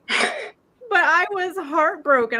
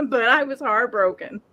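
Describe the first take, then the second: First: Slow, higher, choked on tears; breaking into real crying over the lost chicken; tearful. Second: Said in the usual way. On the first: Real, not acted. Owner grieving her dead chicken to friends, voice breaking into tears. I bawled my eyes out.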